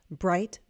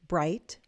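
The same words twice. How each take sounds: The two takes are said the same way.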